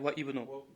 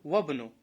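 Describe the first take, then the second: First: The 'i' of 'ibnu' is pronounced separately. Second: The 'i' is dropped, joining into 'wabnu'. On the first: The speaker calls it wrong. "неправильно говорят ва ибну" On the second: The speaker calls it right. "Вабну. Посередине"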